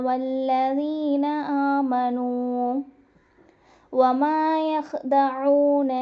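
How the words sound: There is a pause after 'آمنوا'. "يخادعون الله والذين آمنوا நிறுத்துறேன்"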